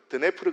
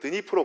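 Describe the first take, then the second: First: The name is said in its older form. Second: The name is said in its Ukrainian form. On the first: This is the form taught in school in the past. "학생 때 배웠던 발음으로는" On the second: This follows the local language of the country. "우크라이나어 발음대로"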